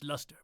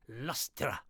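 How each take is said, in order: First: Said in the usual way. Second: Lustra said as LUS-tra with an extra ra syllable; playful pronunciation. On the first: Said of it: "It's still pronounced luster". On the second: Shown as a demonstration. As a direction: say Lustra, not luster, with a fun -tra ending. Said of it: "it's more fun to say lustra".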